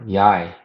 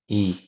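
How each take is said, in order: First: The name sounds like "yai" with a y. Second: The name sounds like "ee" with no y. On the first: The speaker calls it wrong. "is like Yi or Yai um, to most people who don't know" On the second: The speaker calls it right. "is actually pronounced E"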